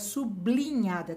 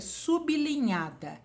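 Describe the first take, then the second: First: The b is joined to the following l. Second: The b is kept apart from the l. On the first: The speaker calls it wrong. "tá errado" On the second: The speaker calls it right. "O certo é sublinhada, porque vem a linha abaixo da palavra"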